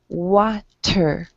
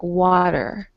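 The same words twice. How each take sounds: First: The middle T is crisp and hard. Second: The middle T sounds soft, like a D. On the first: The speaker calls it right. "pronounce your T a bit harder" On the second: The speaker calls it wrong. "Your T sounds a bit like a D"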